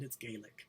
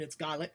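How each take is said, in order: First: The word is said the Irish way. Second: The word is said the Scottish way. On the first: "and in Ireland" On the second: "In Scotland"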